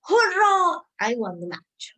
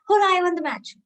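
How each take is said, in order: First: There is a pause after Hurrah. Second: It is said quickly without a pause.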